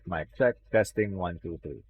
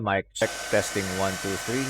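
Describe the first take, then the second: First: Background noise is filtered out behind the voice. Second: Background noise is audible behind the voice. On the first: "Now I'm turning back on the noise removal" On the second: "I'm turning off the noise removal"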